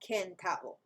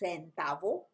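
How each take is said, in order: First: The first consonant is a k sound. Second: The first consonant is an s sound. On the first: The speaker calls it wrong. "not centavo" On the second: The speaker calls it right. "It's a S sound, as in centavo"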